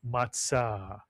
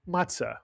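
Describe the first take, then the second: First: It is said in Sephardic Hebrew pronunciation. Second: It is said in the common everyday pronunciation. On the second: "You'll hear people call it"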